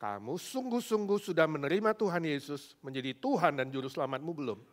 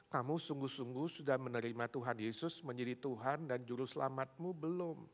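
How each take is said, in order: First: Louder, firmer, stressing "sungguh-sungguh"; emphatic questioning with "sungguh-sungguh" punched; insistent repeated question. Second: Said in the usual way. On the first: Retold or imitated. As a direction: press the question, leaning hard on "sungguh-sungguh". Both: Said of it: "Sekali lagi".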